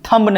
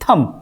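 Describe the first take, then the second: First: The b sound is pronounced at the end. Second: The b sound is silent at the end. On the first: The speaker calls it wrong. "थम नहीं" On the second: The speaker calls it right. "बी क्या होगा यहाँ पे, silent होगा"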